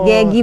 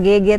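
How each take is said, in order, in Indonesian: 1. Nama itu diucapkan dengan bunyi akhir 'gi'. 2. Nama itu diucapkan sebagai dua bunyi huruf 'ge'. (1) "Gegi bukan G G" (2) "salah pelafalan"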